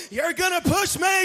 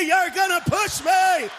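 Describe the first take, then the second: First: Rising whine on me, pitched up. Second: Slower, louder, higher, falling on me. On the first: To the friend about to push him, a whining mock voice. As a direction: whine it like a scared friend who spots you. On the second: To the friend about to push him, a slow shouted mock wail. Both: Acted.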